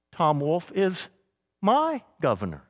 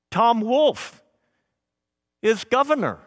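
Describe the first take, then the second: First: "my governor" as a personal bond; stress on my. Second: Said in the usual way. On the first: Shown as a demonstration. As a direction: pause after "is", then stress "my". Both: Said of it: "You hear how it changes".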